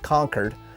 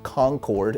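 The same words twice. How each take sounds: First: The second syllable sounds like curd. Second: The second syllable sounds like cord. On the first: "instead of saying" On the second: "my pronunciation of Concord"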